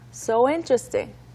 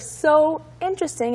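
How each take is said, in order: First: The two words run together as one. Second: The two words are said separately. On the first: "like one word" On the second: "instead of so interesting"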